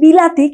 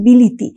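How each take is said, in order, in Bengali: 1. দ্বিতীয় সিলেবলে 'a' স্বরধ্বনি আছে। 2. দ্বিতীয় সিলেবলে 'i' স্বরধ্বনি আছে। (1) "আমি যেটাকে বলছি বিলাতি" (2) "কেউ তাকে বলছে বিলিতি"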